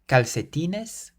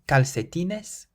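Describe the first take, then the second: First: The second c is sounded like an s. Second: The same.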